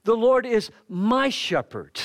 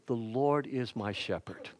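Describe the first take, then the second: First: Higher, louder and slow, leaning on LORD; proclaimed. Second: Hushed, reverent Lord is my shepherd; soft recitation. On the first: Preacher declaring the psalm to the church, loud slow and fervent. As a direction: declare it slowly, with rising fervor. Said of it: "the shepherd is with me". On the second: To the congregation, reciting the psalm in a hushed reverent voice. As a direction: read the line softly and reverently, LORD gently falling. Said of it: "how the imagination is used there". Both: Shown as a demonstration.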